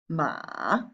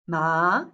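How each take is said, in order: First: It is said with the third basic tone. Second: It is said with the second basic tone.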